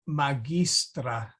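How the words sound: It is said with classical Latin pronunciation. "this teacher is using classical pronunciation. So notice she said"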